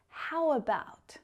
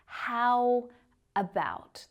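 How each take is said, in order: First: The two words flow together as one. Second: The two words are said separately. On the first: The speaker calls it right. "The words are connected together. They flow" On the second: The speaker calls it wrong. "So it's not how about"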